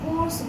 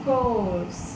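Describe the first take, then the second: First: The vowel is short and plain. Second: The vowel is long and drawn out. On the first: The speaker calls it wrong. "जैसे हम लोग कोर्स बोलते हैं generally" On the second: The speaker calls it right. "जब हम सही ढंग से उसका प्रोनाउंसिएशन करेंगे"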